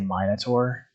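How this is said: It is pronounced the British way. "the British say Minotaur"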